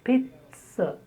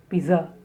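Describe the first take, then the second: First: The stress is on the first syllable. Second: The stress is on the second syllable. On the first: The speaker calls it right. "it's pit" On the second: The speaker calls it wrong. "It is not za"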